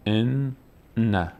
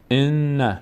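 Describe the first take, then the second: First: ان، pause, then نه; split syllables. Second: ان، نه run together as "enna"; no gap between ان and نه; joined syllables. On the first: Teacher showing the doubled nun, syllables apart. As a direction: separate ان from نه with a clear gap. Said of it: "اصلشون اینطور بوده". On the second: Teacher showing the written tashdid form, syllables joined. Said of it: "شد این". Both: Shown as a demonstration.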